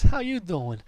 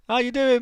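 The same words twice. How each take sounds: First: It is said in a Joey Tribbiani impression. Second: It is said in his own normal voice.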